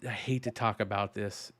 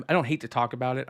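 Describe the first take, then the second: First: Said in the usual way. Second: Quick correction, don't stressed. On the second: Shown as a demonstration. Correcting himself on air, stress on don't. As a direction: fix the wording, lean on don't. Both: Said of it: "is what I should say".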